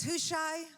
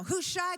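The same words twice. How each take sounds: First: A commanding king summoning his friend; urgent king's call. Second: A king insisting on his command; urgent call. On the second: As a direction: call Hushai much higher and louder, pressing. David urgently commanding his friend. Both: Acted.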